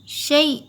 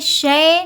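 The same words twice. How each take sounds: First: The syllable is pronounced soft. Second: The syllable is pronounced hard. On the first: The speaker calls it right. "हमें नरम पढ़ना है" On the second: The speaker calls it wrong. "शै नहीं बोलेंगे"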